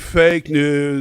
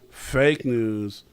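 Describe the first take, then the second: First: It is said in an imitated politician's voice. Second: It is said in the speaker's ordinary voice.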